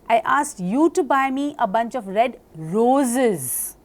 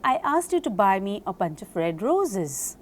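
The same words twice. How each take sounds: First: The word you is stressed. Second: The word roses is stressed. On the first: "when I stress upon you" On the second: "When I stress upon roses"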